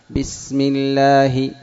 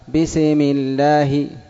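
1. السين ممدودة كامل زمنها. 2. السين مُقلقلة قليلاً. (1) "وإنما أعطيها زمنها" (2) "ولا كذلك أيضا تقلقلها"

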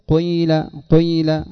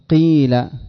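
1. الحركة الأولى تبدأ بأثر من الضمة ثم تكمل بالكسرة. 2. الحركة الأولى كسرة كاملة. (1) "إنما جزء يسير من الضمة في أوله ثم التكملة بالكسر" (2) "ولا تأتي بالكسرة كاملة فتقول قيل"

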